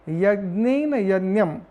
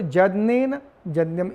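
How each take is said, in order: First: The words begin with a y sound. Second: The words begin with a j sound. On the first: This is the ordinary written form. "पदादि यकार" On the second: This is how the mantra is recited in this tradition. "पदादि यकार को हम लोग जकार का उच्चारण करते हैं"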